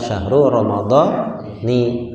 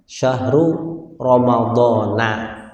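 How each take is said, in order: First: Ramadan ends with an 'i' vowel. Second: Ramadan ends with an 'a' vowel. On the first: The speaker calls it wrong. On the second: The speaker calls it right. "Tapi ketika Ramadan"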